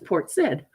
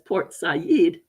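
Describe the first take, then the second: First: The name is said the anglicized, spelled-out way. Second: The name is said the foreign, native way. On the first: It is read from its English spelling. "Dad say that's Port Said because it was S A I D" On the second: This is how people from that culture say it. "the way it was supposed to be said from their own, from that foreign culture"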